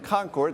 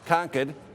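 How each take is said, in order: First: Concord is said the way Californians say it. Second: Concord is said the way New Hampshire locals say it. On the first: The speaker calls it wrong. "That's the California in me pronunciation" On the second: The speaker calls it right. "The proper pronunciation, I've been told many times here, is"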